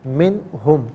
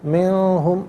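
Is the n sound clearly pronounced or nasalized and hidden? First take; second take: clear; nasalized. First: The n is pronounced clearly without nasal blurring. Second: The n is nasalized and blurred, not clearly pronounced. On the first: The speaker calls it right. "नून साकिन को इज़हार के साथ पढ़ेंगे" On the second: The speaker calls it wrong. "मिनहुम नहीं, गलत है"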